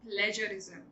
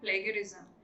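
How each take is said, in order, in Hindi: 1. बीच का व्यंजन नरम j ध्वनि है। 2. बीच का व्यंजन कठोर g ध्वनि है। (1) "जी को ज ही बोलना है instead of ग" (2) "it's not called plagiarism"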